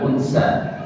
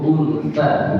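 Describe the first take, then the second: First: The middle consonant is an s sound. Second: The middle consonant is a th sound. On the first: The speaker calls it wrong. "bukan pakai sin" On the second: The speaker calls it right. "pakai sa"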